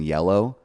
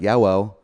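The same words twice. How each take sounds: First: The L sound is said clearly. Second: The L sound is replaced by another sound. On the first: The speaker calls it right. "instead of saying yellow" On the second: The speaker calls it wrong. "couldn't say L's, so I would say instead of saying yellow, I would say like yellow"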